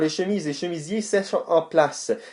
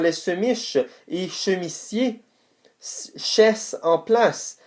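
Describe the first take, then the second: First: The s and ch sounds are normal. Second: The s and ch sounds are swapped. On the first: The speaker calls it right. "On va y aller pour de vrai" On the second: The speaker calls it wrong. "j'ai inversé des S et des ch"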